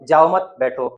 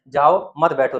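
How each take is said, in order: First: There is a pause right after 'mat'. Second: There is a pause right after 'jao'. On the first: Do not go, stay seated. "दूसरी जगह comma लगा देते हैं" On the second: Go away, do not stay. "यहाँ पर अगर comma लगा देते हैं"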